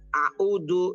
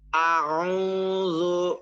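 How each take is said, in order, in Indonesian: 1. Konsonan di tengah itu hentian glotis biasa. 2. Konsonan di tengah itu bunyi faringal, terdengar dari tenggorokan. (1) "Itu jadi ainnya jadi hamzah" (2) "Yang benar"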